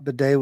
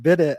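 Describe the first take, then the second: First: The word ends with an 'ay' sound. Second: The word ends with an 'it' sound. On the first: The speaker calls it right. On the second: The speaker calls it wrong.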